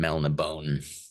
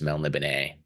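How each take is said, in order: First: The final e is silent. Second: The final e is sounded as a syllable. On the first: "rather than Melnibone" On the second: "did put an accent on the e that makes me think that it's Melniboné"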